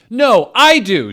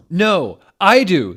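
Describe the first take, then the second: First: High, very loud insistent yell; full shout. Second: High, loud insistent shout. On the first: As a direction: scream it back at him. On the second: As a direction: yell it back at him. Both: Acted.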